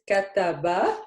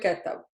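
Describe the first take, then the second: First: The word ends with a final vowel sound. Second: The word ends without a final vowel sound. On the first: This is the standard formal form. "In M S A, it is kataba, exactly with all these accents" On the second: This is the everyday dialect form. "in dialect, we don't say the last accent"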